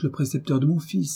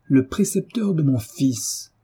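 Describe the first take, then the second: First: Said in the usual way. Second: Slow, drawn-out mocking echo; puffed-up scorn. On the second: A narrator's reading. Husband echoing wife's words, puffed-up scorn. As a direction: pompously repeat it in disdain. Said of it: "en gonflant ses joues et haussant les épaules".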